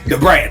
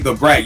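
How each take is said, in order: First: The name is said sharply, like a gunshot. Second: The name is said plainly and evenly. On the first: "it sounds like a gunshot" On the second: "Like I say the brat"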